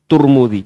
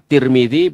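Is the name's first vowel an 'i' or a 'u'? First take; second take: u; i. First: The name is said with 'u' vowels: Turmudi. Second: The name is said with 'i' vowels: Tirmidzi. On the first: "boleh dibaca Turmudi juga boleh" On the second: "Boleh dibaca Tirmidzi"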